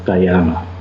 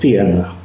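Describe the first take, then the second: First: It is pronounced in an English-style way. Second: It is pronounced in a modern Greek way. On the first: This is the form others commonly use. "instead of Tyana" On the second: This is how the speaker habitually says it. "I will say Apollonius of Tyana"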